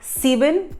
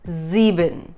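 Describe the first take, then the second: First: The word begins with a sharp S sound. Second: The word begins with a buzzing Z sound. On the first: The speaker calls it wrong. "So it's not it's not sieben" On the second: The speaker calls it right. "but it is sieben. It's somewhere between a S and a, a Z"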